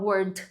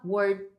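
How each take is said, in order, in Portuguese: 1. O D final é cortado rápido. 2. O D final é segurado por mais tempo. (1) "A gente não fala word" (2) "segurando esse D no final"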